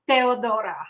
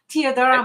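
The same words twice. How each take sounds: First: The name is said with a Romanian accent. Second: The name is said with an English accent.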